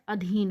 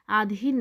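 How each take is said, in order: First: The first vowel is short. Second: The first vowel is long. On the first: The speaker calls it right. "ह्रस्व लगता है" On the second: The speaker calls it wrong. "इसमें जो दीर्घ आ है"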